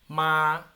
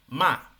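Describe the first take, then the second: First: The syllable is said with the first tone. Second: The syllable is said with the falling fourth tone. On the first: "el uno" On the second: "el cuatro"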